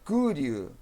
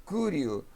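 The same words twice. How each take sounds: The two takes are said the same way.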